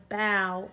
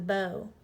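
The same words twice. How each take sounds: First: The vowel rhymes with the vowel in cow. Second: The vowel rhymes with the vowel in go. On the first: Bending forward at the end of a performance. "she took a bow at the end of her performance" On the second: A weapon for shooting arrows. "he used a bow and arrow"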